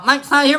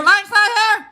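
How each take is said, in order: First: Said in the usual way. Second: Very high, loud repeat; high comic holler. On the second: Acted. Host jokes about an absent viewer, high comic holler. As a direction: call it out in a raised, high voice.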